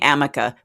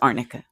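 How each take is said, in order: First: The middle consonant sounds like a plain m. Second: The middle consonants sound like r followed by n. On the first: This is how someone else mispronounced it. The speaker calls it wrong. "She was saying amica" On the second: This is the real name of the cream. The speaker calls it right. "but it was arnica"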